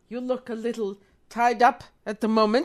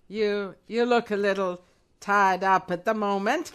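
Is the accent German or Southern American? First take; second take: German; Southern American. First: It is said in a German accent. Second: It is said in a Southern American accent.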